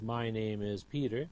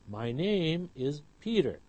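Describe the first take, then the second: First: All four words get roughly equal stress. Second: Name and Peter are stressed more than my and is. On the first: The speaker calls it wrong. "We do not read the first sentence as" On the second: The speaker calls it right. "but rather my name is Peter ... the words name and Peter are clearer than my and is"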